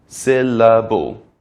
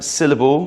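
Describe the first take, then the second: First: "Syllable" slow and loud, in three drawn-out beats. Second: Said in the usual way. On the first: Shown as a demonstration. Teacher showing learners that the word has three syllables, slow syllable-by-syllable demo. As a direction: stretch out each of the three parts of "Syllable". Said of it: "has three syllables".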